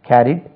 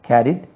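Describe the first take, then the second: The two takes are said the same way.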